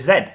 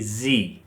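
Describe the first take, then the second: First: The letter is said the British way. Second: The letter is said the American way. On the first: "in British English we say Z" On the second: "Americans say Z"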